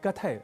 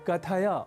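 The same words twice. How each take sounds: First: The word ends on a consonant, vowel dropped. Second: The word ends with a short final a vowel. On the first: The speaker calls it wrong. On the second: The speaker calls it right.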